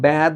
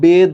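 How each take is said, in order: First: The vowel is an open, flattened ae sound. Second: The vowel is a plain closed e sound. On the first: The speaker calls it wrong. "ব্যাদ বলতে পারবা না" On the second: The speaker calls it right. "এটাকে তুমি বেদ বলবা"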